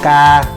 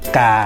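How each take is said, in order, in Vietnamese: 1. Cao độ giữ ngang và bằng phẳng. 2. Cao độ hạ xuống thấp hơn một chút. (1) "tiếng ngang" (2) "xuống một phất"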